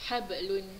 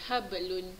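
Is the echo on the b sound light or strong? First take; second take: light; light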